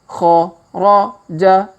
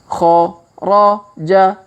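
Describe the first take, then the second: No difference in how they are said.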